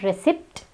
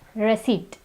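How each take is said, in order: First: The P sound is pronounced. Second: The P sound is silent. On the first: The speaker calls it wrong. "It's not receipt" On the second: The speaker calls it right. "the P is silent"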